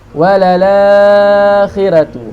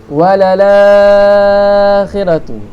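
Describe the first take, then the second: First: The long vowel is held for four beats. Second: The long vowel is held for six beats. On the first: "empat harakat" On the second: "enam harakat"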